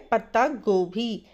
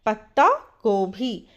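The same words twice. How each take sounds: The two takes are said the same way.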